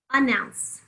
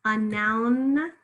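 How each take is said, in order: First: Said in the usual way. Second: "A noun" stretched out on the final n; lingering on N. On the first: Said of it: "we often have the schwa sound". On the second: Shown as a demonstration. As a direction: sound out "A noun" slowly, holding the n. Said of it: "make sure you hear that N".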